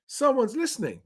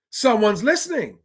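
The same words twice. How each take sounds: First: Very high, lighter delight; pleased, high-pitched aside. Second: High, swooping delight; pleased, high-pitched outburst; delighted exclamation. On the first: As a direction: echo it high without pushing the volume. Repeats the delighted reaction more softly. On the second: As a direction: exclaim it high, as if finally heard. Delighted reaction to council housing news. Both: Real, not acted.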